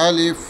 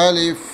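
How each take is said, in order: The two takes are said the same way.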